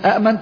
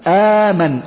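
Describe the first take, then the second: First: Two glottal stops are said, the second unvoweled. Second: One glottal stop is followed by a long a. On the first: The speaker calls it wrong. "الهمزة الأولى متحركة... والهمزة الثانية تكون ساكنة" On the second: The speaker calls it right. "أبدلت الهمزة ألف"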